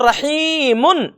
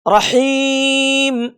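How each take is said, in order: First: The word ends with the syllable -un. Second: The word ends on m, ending dropped. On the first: The speaker calls it wrong. "रहीमुन इस तरह से नहीं पढ़ेंगे" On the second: The speaker calls it right. "बल्कि रहीम इस तरह से पढ़ेंगे"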